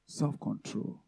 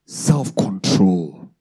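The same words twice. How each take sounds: First: "Self-control" repeated much softer, almost to oneself; soft echo. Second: "self-control" drawn out very slowly, each syllable held; slow emphasis. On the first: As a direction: drop "Self-control" to a hush. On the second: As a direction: stretch out "self-control" for weight. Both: Shown as a demonstration.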